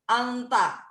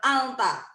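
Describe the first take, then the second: First: The n is lengthened with a nasal sound. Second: The n is short and plain. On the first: This is the style of Quran recitation. "lebih panjang anta. N-nya itu sudah nggak seperti N biasa, jadi agak sedikit ada nasal" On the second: This is how it is normally said. "Padahal cuman anta"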